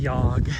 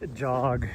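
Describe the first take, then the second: First: The word starts with a Y sound. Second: The word starts with a J sound. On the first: "we pronounce the J as a Y" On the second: "Instead of pronouncing it as as jog"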